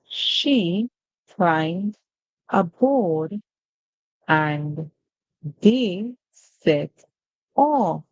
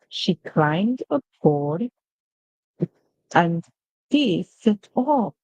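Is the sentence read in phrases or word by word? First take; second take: word by word; in phrases. First: Each word is read separately, one at a time. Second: The words are grouped into smooth connected phrases. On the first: "So we just read using word by word" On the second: "Now we're going to be reading in phrases"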